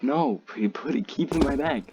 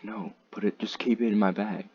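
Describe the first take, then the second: First: Higher-pitched, quicker retold insistence; insistent refusal. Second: Said in the usual way. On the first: Telling a friend to keep the vape bagged, retold insistent refusal. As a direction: push the refusal, pitch climbing as you repeat it.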